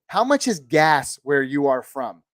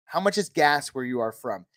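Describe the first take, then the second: First: Slower, stressing much; slow emphatic question. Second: Said in the usual way. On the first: Shown as a demonstration. Asking his viewers, slow and emphatic. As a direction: lean into the word much, slowly. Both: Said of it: "this is a question I always like to ask people".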